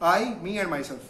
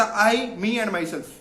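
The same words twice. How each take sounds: First: Said in the usual way. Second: A light imitation of Salman Khan's filmy delivery; Salman Khan line. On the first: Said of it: "مطلب تین، تین ہو گئے نا". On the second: Coach quoting Salman Khan to students, mild filmy impression. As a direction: borrow the star's famous line, lightly voiced. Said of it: "ایک تیسری چیز بھی include کرتے ہیں سلمان خان والی".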